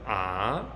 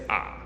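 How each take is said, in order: First: The pitch starts mid and rises upward. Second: The pitch starts low, falls slightly, then flattens. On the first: "starts in the middle and then goes up" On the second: "if I'm just speaking how I might normally speak"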